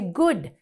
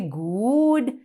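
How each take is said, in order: First: The vowel is clipped short. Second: The vowel is drawn out long. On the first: The speaker calls it right. "We say good. So it's a short O" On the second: The speaker calls it wrong. "We don't say good"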